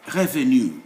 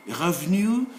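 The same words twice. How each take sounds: First: "revenu" in three syllables, re-ve-nu; optional e pronounced. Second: "revenu" in two syllables, rev-nu; optional e dropped. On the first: Teacher giving the full option, e kept. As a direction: sound the middle e in "revenu". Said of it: "You can pronounce it". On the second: Teacher giving the short option, e dropped. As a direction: run v into n in "revenu". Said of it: "or you can delete it". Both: Shown as a demonstration.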